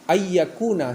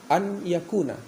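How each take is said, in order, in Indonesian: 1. Bunyi n menyatu dengan bunyi y setelahnya. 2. Bunyi n diucapkan sebelum bunyi y. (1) "Idgham ... seharusnya" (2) "tapi sering baca dibaca an yakuna begitu"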